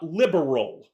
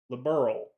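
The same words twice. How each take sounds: First: It ends like 'liberal', with an extra vowel sound. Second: It ends in plain 'berl' with no extra vowel. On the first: The speaker calls it wrong. "Not liberal" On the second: The speaker calls it right. "L I B E R L"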